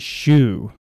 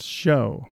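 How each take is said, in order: First: The word rhymes with blue. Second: The word rhymes with blow. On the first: The speaker calls it wrong. "they say shoe" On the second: The speaker calls it right. "It's pronounced show"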